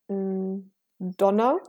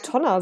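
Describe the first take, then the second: First: The word begins with a soft D sound. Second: The word begins with a hard T sound. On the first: The speaker calls it right. "Wörter ... mit D, wie zum Beispiel Donner" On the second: The speaker calls it wrong. "Das klingt doch, als ob ich einen Sprachfehler hätte"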